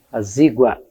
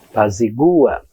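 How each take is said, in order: First: The stress is on the syllable 'zi'. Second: The stress is on the syllable 'gu'. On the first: "acento para o terminado em ditongo" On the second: "E aí sem acento naturalmente"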